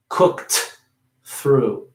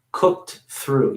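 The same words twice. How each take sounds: First: "Cooked" with a hard T, then a pause before "through"; overdone wrong way; heavy, split T. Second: "Cooked through" with the ED as a little T, linked; light T link. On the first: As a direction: pull "Cooked" and "through" apart. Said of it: "don't wanna really pronounce it heavily". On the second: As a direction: keep the T of "Cooked" small and flow into "through". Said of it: "Making that E D into a, a little T". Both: Shown as a demonstration.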